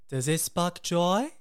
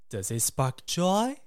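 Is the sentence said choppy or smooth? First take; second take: smooth; smooth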